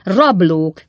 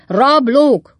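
First: Loud shout near usual pitch; loud, contained indignant cry; cried out. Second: Loud, high, falling yell; full-voiced outraged roar. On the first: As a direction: call out the accusation forcefully. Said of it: "kiáltotta Pickwick úr". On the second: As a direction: bellow the accusation at higher pitch. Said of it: "ordította Pickwick úr". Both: A narrator's reading.

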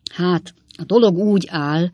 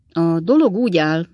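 First: Forcing the words out with despair; desperate effort. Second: Tentative opening that breaks off; begin, then lose your nerve; hesitant start. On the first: Sam tries again to confess, desperately forcing it. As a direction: push through the words in desperation. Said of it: "kezdte Sam újra kétségbe esett erőlködéssel". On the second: Sam starts his confession, unsure and breaking off. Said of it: "kezdte Sam". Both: A narrator's reading.

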